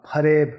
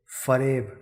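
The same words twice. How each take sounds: First: फरेब with aspirated ph, as pareb; without nukta. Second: फरेब with a clear f sound; with nukta. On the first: Teacher shows फरेब without the nukta, aspirated ph. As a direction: begin फरेब with a breathy ph. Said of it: "बिंदी हटा देते हैं". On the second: Teacher shows फरेब with the nukta, f sound. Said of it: "उच्चारण में समझ रहे हैं?". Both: Shown as a demonstration.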